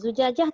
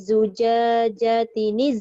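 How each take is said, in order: First: The word ends in a clipped -ah sound. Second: The word ends in a linked -atin sound. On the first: The reciter stops after this word. "Kalau zujajah tak ada" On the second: The reciter joins it to the next word. "Tapi kalau disambung dia jadi macam mana?"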